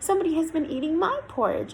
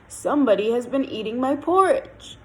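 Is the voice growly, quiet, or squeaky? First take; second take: squeaky; growly. First: The voice is high and squeaky. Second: The voice is deep, big and growly. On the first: "in his squeaky voice" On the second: "in his great big growly voice"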